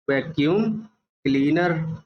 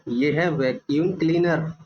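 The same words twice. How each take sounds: First: Slow spelled-out word. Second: Said in the usual way. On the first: Shown as a demonstration. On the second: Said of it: "vacuum / cleaner split apart".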